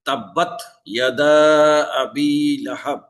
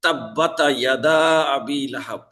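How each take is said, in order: First: তাব্বাত closed with silent ta; তাব্বাত ইয়াদা, ta with no vowel; correct sukun. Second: তাব্বাতা with an extra a on ta; তাব্বাতা ইয়াদা, vowel added where sukun is; wrong added vowel. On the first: Teacher recites the correct sukun for students. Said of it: "তায়ের উপরে সাকিন আছে". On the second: Teacher shows students the wrong added vowel. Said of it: "যেমন পড়লাম". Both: Shown as a demonstration.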